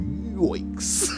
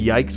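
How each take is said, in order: First: The word is said with a changed vowel. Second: The word is said with its usual vowel. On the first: "but instead you go yoiks" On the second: "Or you say yikes"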